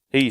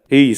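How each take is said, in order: First: The voice sounds thinner and less full. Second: The voice sounds big, high and thick.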